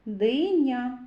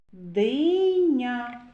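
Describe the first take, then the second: First: Said in the usual way. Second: "Диня" slowly stretched, long "и"; sounding out. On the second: Shown as a demonstration. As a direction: draw "Диня" out so each sound is heard. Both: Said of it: "зробимо звуковий аналіз слова".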